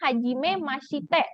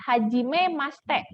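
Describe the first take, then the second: First: Every syllable, including 'shi', is fully pronounced. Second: It is said quickly, with 'shi' reduced away. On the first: This follows the written form. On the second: This is how Japanese people say it quickly. "orang Jepang suka cepet"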